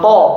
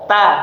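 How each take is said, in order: First: The vowel is dark and rounded, like o. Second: The vowel is bright and open, like a. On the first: The speaker calls it wrong. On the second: The speaker calls it right.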